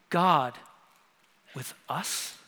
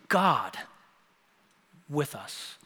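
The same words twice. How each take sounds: First: The stress is on us. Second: The stress is on God.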